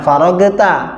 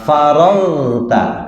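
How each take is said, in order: First: The gh sound is bounced with an echo. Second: The gh sound is smooth without an echo. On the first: The speaker calls it wrong. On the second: The speaker calls it right.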